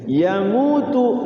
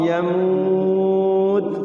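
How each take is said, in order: First: The word ends with a short u vowel. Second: The word ends on a t consonant. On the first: The reading continues without stopping. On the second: The reader stops on this word.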